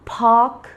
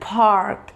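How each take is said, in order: First: It is said in a British accent. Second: It is said in an American accent. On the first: "park British" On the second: "park American"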